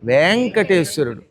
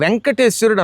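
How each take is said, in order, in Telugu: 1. మొదటి అచ్చు పొడుగు. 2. మొదటి అచ్చు పొట్టి. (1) "ఏమనాలి?" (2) "అనకూడదు"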